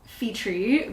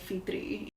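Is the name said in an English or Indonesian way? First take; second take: English; Indonesian. First: The name is said with an English pronunciation. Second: The name is said with an Indonesian pronunciation. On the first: It is made easier for English speakers. "in English, I would pronounce Fitri because that's just how an you know someone who speaks English would pronounce it" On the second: It is the name as said at home. "like in Indonesia, I would say Fitri"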